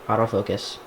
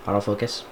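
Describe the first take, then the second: No difference in how they are said.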